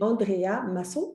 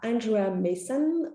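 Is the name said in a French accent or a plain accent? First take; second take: French; plain. First: The name is said with a French accent. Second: The name is said without a French accent.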